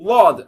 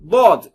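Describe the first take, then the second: First: The first consonant sounds like an l sound. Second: The first consonant sounds like a plain d. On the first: "லாம் மீது ஏறி நின்று சொன்னீங்கன்னா" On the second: "தால் மீது சொன்னீங்கன்னா முன்னாடி அழுத்திடுவீங்க"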